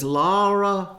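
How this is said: It is said in a Tennessee accent.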